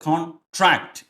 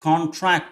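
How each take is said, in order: First: The stress is on the second syllable. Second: The stress is on the first syllable.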